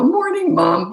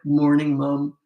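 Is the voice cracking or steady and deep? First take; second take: cracking; steady, deep. First: The voice cracks and breaks in pitch. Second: The voice is steady and deep. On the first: The speaker is still a boy. "with the cracking voice" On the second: The speaker has become a man. "No more voice cracking"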